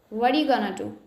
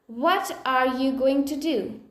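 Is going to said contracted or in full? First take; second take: contracted; full. First: Going to is reduced to gonna. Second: Going to is said as two full words.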